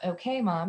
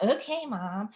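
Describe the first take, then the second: First: Said in the usual way. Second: Mock eye-rolling teen okay mom with a rising sulk; bratty attitude. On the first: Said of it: "but you really want it to be". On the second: Shown as a demonstration. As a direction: say it like a put-upon preteen. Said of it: "otherwise it's gonna come out".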